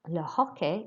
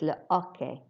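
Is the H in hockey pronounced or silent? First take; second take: pronounced; silent. First: The H in hockey is pronounced. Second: The H in hockey is silent. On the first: The speaker calls it wrong. "it's not le hockey" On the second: The speaker calls it right. "we don't pronounce the H at all"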